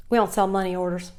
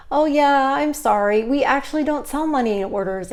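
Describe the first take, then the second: First: Curt clerk. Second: Higher, louder, apologetic customer-service voice; polite apology. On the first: Retold or imitated. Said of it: "And here's her". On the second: Shown as a demonstration. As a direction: sound genuinely sorry for the customer. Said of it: "that's what I would have said".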